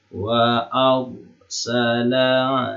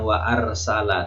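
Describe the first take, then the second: First: The r sound is heavy and thick. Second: The r sound is light and thin. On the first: The speaker calls it right. "dibaca tebal" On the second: The speaker calls it wrong. "bukan wa arsala"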